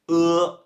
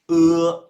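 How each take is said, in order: The two takes are said the same way.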